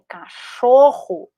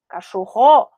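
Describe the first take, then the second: First: The stress is on the middle syllable. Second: The stress is on the last syllable. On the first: The speaker calls it right. "a palavra cachorro é cachorro" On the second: The speaker calls it wrong. "e não cachorrô"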